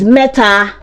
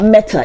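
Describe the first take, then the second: First: It is said with a Yoruba pronunciation. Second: It is said with an English pronunciation. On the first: The speaker calls it right. "It is meta" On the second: The speaker calls it wrong. "that's not meta"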